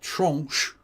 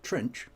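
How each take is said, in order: First: The word is said with a French pronunciation. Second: The word is said with an English pronunciation. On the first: "to use the French pronunciation" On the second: "or trench"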